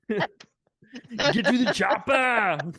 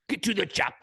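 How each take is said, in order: First: It is said in a put-on movie impression voice. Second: It is said in a plain, unconvincing voice.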